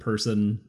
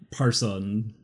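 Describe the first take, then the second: First: The first vowel sounds like 'er' in 'person'. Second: The first vowel sounds like 'ar' in 'parson'. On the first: This is how the hosts would normally say it. "we would pronounce it person" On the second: This is how it was heard said elsewhere. "I heard, like, Parson"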